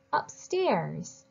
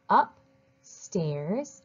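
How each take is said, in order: First: Said in the usual way. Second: "upstairs" as "up", pause, "stairs"; split into parts. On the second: Shown as a demonstration. Teacher helps readers decode a longer word, split into parts. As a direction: break "upstairs" before "stairs". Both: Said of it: "use it to help us read the longer word".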